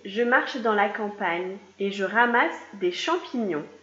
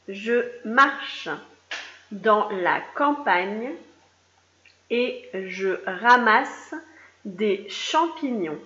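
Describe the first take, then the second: First: The sentence is read at a normal pace. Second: The sentence is read more slowly.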